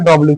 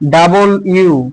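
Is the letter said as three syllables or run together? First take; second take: run together; three syllables. First: The letter is said run together, like 'dublyu'. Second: The letter is said fully, like 'double you'. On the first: The speaker calls it wrong. "সবাই বলে যে এটা ডব্লিউ" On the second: The speaker calls it right. "সঠিক উচ্চারণ হচ্ছে ডাবল ইউ"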